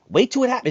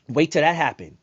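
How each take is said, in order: First: Higher and louder, heated; repeated warning turned into a raised-voice outburst. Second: Said in the usual way. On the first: Real, not acted. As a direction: hammer the warning home, near a shout.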